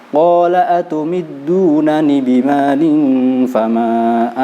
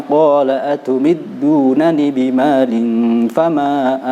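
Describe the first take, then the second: Both takes have the same delivery.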